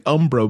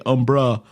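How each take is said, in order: First: "Umbro", ending in an oh; mistaken pronunciation. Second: "Umbra", ending in an uh or ah; corrected pronunciation. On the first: Player admits an old misreading, saying "Umbro" with an oh ending. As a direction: say "Umbro" with a final o sound. But it's actually Umbra. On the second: Player corrects an old misreading, saying "Umbra" with an ah ending. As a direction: say "Umbra" with a final ah sound. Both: Shown as a demonstration.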